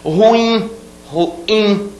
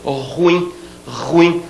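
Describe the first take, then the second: First: "ruim" higher, split as ru-IM; two syllables, final stress. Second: "ruim" squeezed into one syllable, stress on RU; popular mispronunciation. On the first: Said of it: "a última sílaba é tônica". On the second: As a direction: run "ruim" together as RÚim. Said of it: "uma tendência popular muito grande a dizer". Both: Shown as a demonstration.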